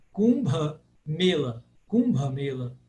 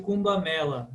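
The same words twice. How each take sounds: First: Mela with a closed E; closed 'e' in Mela. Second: Mela with an open E. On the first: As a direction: model Kumbha Mela, E as 'ay'. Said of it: "sempre fechado". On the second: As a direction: say Mela as 'MEH-la', Brazilian style. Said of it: "falar esse som sempre aberto". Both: Shown as a demonstration.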